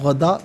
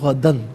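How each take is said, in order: First: The word ends with a long vowel. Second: The word ends with an n sound. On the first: The reader stops at this word. "वफ़ की सूरत में गदा पढ़ा जाएगा" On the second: The reading continues without stopping. "यहाँ पर इसे पढ़ेंगे गदन"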